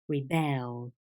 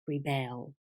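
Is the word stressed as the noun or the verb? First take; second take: verb; verb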